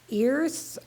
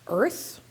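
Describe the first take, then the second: First: The vowel is drawn out longer. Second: The vowel has normal length. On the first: "earth with the vowel drawn out or longer than normal" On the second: "like the normal word earth"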